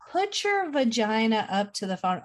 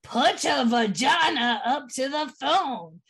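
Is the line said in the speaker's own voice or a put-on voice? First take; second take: own voice; put-on voice. First: It is said in the speaker's normal voice. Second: It is said in a put-on Dave voice.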